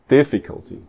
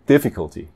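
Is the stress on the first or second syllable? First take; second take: first; first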